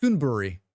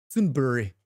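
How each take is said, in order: First: Said in the usual way. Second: Sudbury said with a put-on Canadian accent; a playful Canadian accent on Sudbury. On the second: Shown as a demonstration. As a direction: try the town name like a Canadian local. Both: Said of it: "How's my Canadian?".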